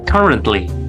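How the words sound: It is said with an American accent. "for American"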